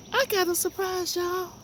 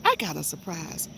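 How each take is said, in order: First: Much higher, delighted squeal; excited squeal. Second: Said in the usual way. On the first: Real, not acted. Teasing viewers with a garden surprise, high excited squeal. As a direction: burst out with real joy. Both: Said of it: "Do y'all know how happy I am?".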